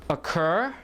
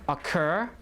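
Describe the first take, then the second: No difference in how they are said.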